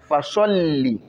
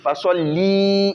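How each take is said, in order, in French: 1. La voyelle finale de 'li' est gardée courte. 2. La voyelle finale de 'li' est prolongée. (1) "Non, pas li" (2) "il y en a qui tirent le li"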